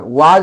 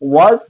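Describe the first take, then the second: First: The vowel is an open unrounded 'aa'. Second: The vowel is a rounded 'aw' sound. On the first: The speaker calls it wrong. "वाज नहीं" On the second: The speaker calls it right. "इसका शुद्ध उच्चारण होता है वॉज"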